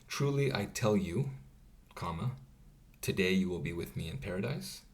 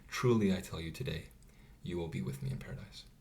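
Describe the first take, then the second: First: The pause comes before the word today. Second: The pause comes after the word today.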